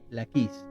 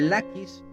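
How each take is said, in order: First: The stress is on the second syllable. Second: The stress is on the first syllable.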